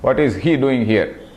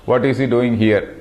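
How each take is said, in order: First: The word he is stressed. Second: No word is given special stress. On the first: Others may be here, but not this person. "I am giving an emphasis on he" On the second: It carries no particular point of view. "I do not emphasize on any point"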